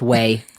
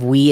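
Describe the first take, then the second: First: The vowel sounds like the English word 'way'. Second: The vowel sounds like the English word 'we'. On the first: The speaker calls it right. "it's way" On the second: The speaker calls it wrong. "Instead of we"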